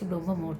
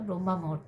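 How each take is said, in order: First: The first word ends without the full 'a' vowel. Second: The first word ends in a full 'a' vowel. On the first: The speaker calls it wrong. "আমি বারবারই ভুল বলছি, ব্রহ্ম মুহূর্ত বলছি" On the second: The speaker calls it right. "কিন্তু কথাটা ব্রহ্মা মুহূর্ত"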